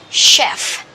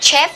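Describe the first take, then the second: First: The word begins with a 'sh' sound. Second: The word does not begin with 'sh'. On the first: The speaker calls it right. "this is sh" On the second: The speaker calls it wrong. "don't say this chef"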